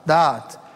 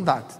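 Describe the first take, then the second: First: The word is said as two separate syllables. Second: The word is said as one short syllable. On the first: The speaker calls it right. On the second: The speaker calls it wrong.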